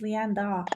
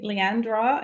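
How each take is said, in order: First: LEANDA said without an R. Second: LEANDRA with an R after the D; added R. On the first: Shown as a demonstration. Guest gently correcting a viewer on her name, Leanda without the R. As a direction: say Leanda with a plain D, no R after it. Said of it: "it's without the R". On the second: Retold or imitated. Guest quoting her friend's old mistake, Leandra with an added R. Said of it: "even Tabby called me Leandra".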